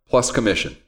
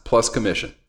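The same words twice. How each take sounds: First: Said in the usual way. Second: "plus commission" set apart, low and deliberate; quoted emphasis. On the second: Shown as a demonstration. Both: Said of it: "only time you'll ever hear me say".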